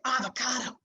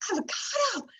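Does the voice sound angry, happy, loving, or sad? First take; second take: angry; happy. First: The word is said in an angry tone. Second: The word is said in a happy tone. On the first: "we are angry with it" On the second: "as if we're so happy"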